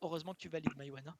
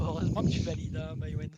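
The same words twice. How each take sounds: First: Lost voice. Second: Hoarse, worn-out voice after shouting; straining a voice that's almost gone; lost voice. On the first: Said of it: "J'ai quasiment perdu ma voix". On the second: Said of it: "parce que j'ai plus de voix". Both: Real, not acted.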